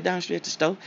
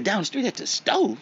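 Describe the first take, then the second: First: Said in the usual way. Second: Pitched up in disbelief, a bit louder; astonished question; incredulous echo. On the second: Retold or imitated. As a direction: repeat it back like you can't believe it.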